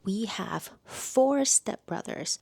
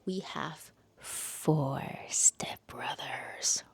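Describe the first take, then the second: First: Said in the usual way. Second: Slow breathy teaser whisper. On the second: Pretend. Reviewer teasing viewers with the book's premise, slow whisper. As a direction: hush it like a secret.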